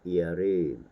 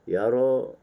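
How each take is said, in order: First: The final vowel leans toward 'e'. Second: The final vowel is an open 'a'. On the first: This is the Al-Kisai reading. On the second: This is the common Hafs reading.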